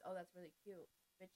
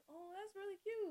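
First: Flat, low, bored delivery; monotone. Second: High, bright-eyed gush; genuine cute voice. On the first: Shown as a demonstration. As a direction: say it dead flat. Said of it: "if I say it in a monotone voice". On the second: Retold or imitated. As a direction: gush over it sweetly. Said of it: "that's literally my voice when I".

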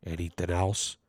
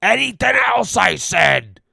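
First: "Anything else?" said very low and very soft; real quiet. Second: "Anything else" shouted high and loud; loud snap. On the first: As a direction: mumble "Anything else?" under your breath. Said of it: "real quiet". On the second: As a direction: yell "Anything else" in irritation. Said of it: "Just like that there". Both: Retold or imitated.

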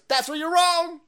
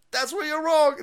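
First: High, loud mocking retort. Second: High mocking retort, falling at the end; mock retort again. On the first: Answering the critics with a high mocking retort. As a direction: fire it back in a high squeal. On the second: Answering the critics, high mocking retort again. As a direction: squeal it back, then drop the last word. Second take.

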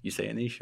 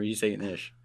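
First: "niche" said as NEESH; long-ee pronunciation. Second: "niche" said as NISH; short-i pronunciation. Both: Shown as a demonstration. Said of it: "How do you say it?".

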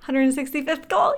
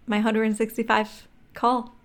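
First: Higher, thrilled repeat; excited. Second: Slow, with a pause before the last word; slow, weighty. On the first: Reliving the first sale after many calls, excited. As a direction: burst into excitement at the milestone. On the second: Telling of the first sale after many calls, slow and weighty. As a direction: let the milestone land slowly. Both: Retold or imitated.

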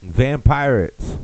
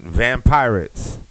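First: A drawn-out, slightly higher trailer read; trailer title. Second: Drawn out slowly like a movie trailer; trailer title. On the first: Comic repeating the fake movie title, slow trailer voice. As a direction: sell the title slowly. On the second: Comic pitching a fake movie, slow trailer voice. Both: Acted.

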